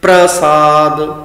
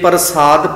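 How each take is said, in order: First: The p and r are joined as pr. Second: A vowel separates the p and r sounds. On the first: The speaker calls it right. "उचारण अद्धे रारे का इस तरह किया जाएगा" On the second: The speaker calls it wrong. "जे प्रसाद पाठ किया तां भी गलत है"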